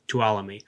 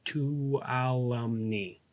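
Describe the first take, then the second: First: Tuolumne without the N, "too-AH-luh-mee", low and quick; silent N. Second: Tuolumne sounded out slowly and softly with the N, "too-AH-lum-nee"; N pronounced. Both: Shown as a demonstration. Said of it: "you might not pronounce the N".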